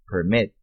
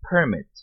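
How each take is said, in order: First: Permit stressed on the second syllable, perMIT; verb stress. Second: Permit stressed on the first syllable, PERmit; noun stress. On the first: (Permit com tônica na segunda sílaba, perMIT) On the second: (Permit com tônica na primeira sílaba, PERmit) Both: Shown as a demonstration. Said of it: "sílaba tônica diferente".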